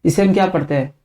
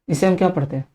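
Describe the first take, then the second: No difference in how they are said.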